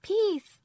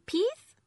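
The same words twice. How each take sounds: First: Put-on "Peas." said by a toddler, high and loud, s lisped as th; high toddler voice saying "Peas." with a lisped th at the end; lisped toddler word. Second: "peas?" said high and loud with a rising tune, s lisped as th; a toddler's lisped please asked as a question. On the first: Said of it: "Can you say egg". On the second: Toddler voiced in story. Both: A narrator's reading.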